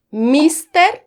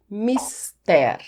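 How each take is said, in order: First: "mister" as MIS-ter, higher, rising like a question; first-syllable stress. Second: "mister" as mis-TÉR, open e, falling; last-syllable stress. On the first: Teacher asking viewers if it is MIS-ter, first-syllable stress. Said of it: "não mister". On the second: Teacher offering viewers the option mis-TÉR, last-syllable stress. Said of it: "a sílaba mais forte é a última". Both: Shown as a demonstration.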